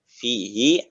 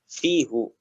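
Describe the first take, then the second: First: The word ends with an 'ee' vowel. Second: The word ends with an 'oo' vowel. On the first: The speaker calls it right. "harokat domirnya adalah kasroh" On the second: The speaker calls it wrong. "didengar juga telinga kita akan merasa asing itu"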